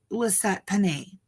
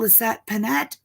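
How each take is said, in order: First: The surname ends in a vowel, French style. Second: The surname ends with a clear t sound. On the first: The speaker calls it wrong. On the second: The speaker calls it right.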